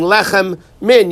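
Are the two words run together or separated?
separated. The two words are kept separate. The speaker calls it right. "you should stop and pronounce it clearly that it's a separate word"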